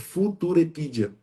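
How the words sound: The name is pronounced with Portuguese sounds.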